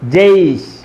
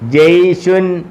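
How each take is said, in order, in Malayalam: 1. വാക്ക് അവസാനിക്കുന്നത് ശുദ്ധ വ്യഞ്ജനത്തിലാണ്. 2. വാക്ക് അവസാനിക്കുന്നത് ചേർത്ത 'un' ശബ്ദത്തോടെയാണ്. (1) "പറയേണ്ടത് ജയ്ഷ്" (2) "എഴുതിയേക്കുന്ന ജയ്ഷുൻ"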